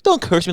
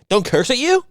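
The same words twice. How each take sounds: First: High, mimicked complaint; mock complaining mover. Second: Very high, rising mocking question; mock incredulous echo. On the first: Mimicking the mover telling mom off, high mock complaint. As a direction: imitate a touchy man objecting, pitched up. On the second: Throwing the mover's complaint back at him, mock incredulous.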